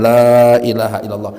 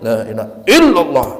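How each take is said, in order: First: The 'la' sound is clearly drawn out long. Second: The 'la' is barely heard; 'illallah' is pressed. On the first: It follows the recitation rules. "lahnya dipanjangin" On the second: Nothing exists but God, felt in the heart. "lahnya itu disembunyikan"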